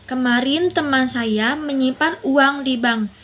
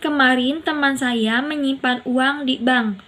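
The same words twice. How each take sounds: First: The word uang carries the main stress. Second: The words di bank carry the main stress. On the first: It was money, not goods or gold. "uang bukan barang atau emas" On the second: It was at the bank, not a pawnshop. "Di bank bukan pegadaian"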